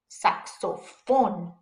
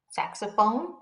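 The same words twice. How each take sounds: First: Slow "saxophone" in Spanish, sak-so-FON; Spanish pronunciation. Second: Said in the usual way. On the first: Shown as a demonstration. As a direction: separate the syllables of saxophone, pure Spanish O vowels. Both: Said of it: "Saxophone in English".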